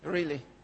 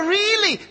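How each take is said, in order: First: It sounds deflated and unenthusiastic. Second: It sounds eager and excited.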